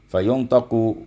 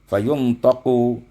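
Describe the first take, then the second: The two takes are said the same way.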